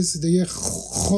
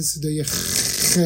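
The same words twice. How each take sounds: First: خ said as rounded "khwo"; old rounded kh. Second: خ said as plain "khe"; ordinary kh sound. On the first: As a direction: round the lips through a drawn-out rasp on خ. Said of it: "بلکه به صدای". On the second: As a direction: hold the rasp of خ, then a plain vowel "e". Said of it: "نه به صدای". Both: Shown as a demonstration.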